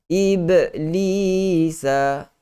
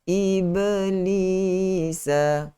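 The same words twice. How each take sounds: First: The b sound has a big, heavy bounce. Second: The b sound has a small, light bounce. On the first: The speaker calls it wrong. "hentakan yang besar. Lantunan yang besar. Itu bacaan uh, qalqalah yang tidak tepat" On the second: The speaker calls it right. "Lantunan yang kecil"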